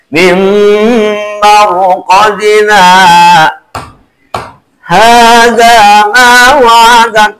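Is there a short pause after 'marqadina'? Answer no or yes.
yes. A short pause follows marqadina before hadha.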